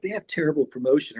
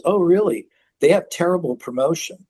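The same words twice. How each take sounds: First: Lighter, gentler version of the verdict; softened put-down. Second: Raised, matter-of-fact mock reply; blunt put-down. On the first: Retold or imitated. How Rick Rubin didn't say it, softened. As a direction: say it as a milder aside. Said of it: "not even like". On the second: Rick Rubin answering news of the deal, blunt. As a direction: imitate an instant, tactless verdict. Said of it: "he just says it like that".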